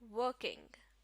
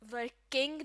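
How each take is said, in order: First: The stress is on the first syllable. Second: The stress is on the second syllable. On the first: The speaker calls it right. "इसी तरह" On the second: The speaker calls it wrong. "Working नहीं"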